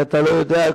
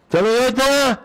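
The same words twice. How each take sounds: First: Said in the usual way. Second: "אתה לא יודע" pitched high and insistent; emphatic repeat. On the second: Retold or imitated. Father enlightening his son, "אתה לא יודע" high and emphatic.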